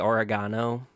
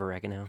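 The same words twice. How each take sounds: First: It is said with a British accent. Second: It is said with an American accent.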